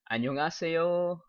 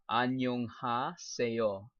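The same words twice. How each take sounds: First: It is said at normal speed. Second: It is said slowly.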